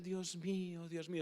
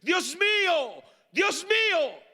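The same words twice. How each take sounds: First: It is said quietly. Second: It is shouted loudly.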